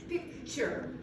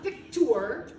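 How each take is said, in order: First: The t is not said as a plain t. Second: The t is said as a plain t. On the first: The speaker calls it right. "it says picture" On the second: The speaker calls it wrong. "it's not picture, it doesn't say T"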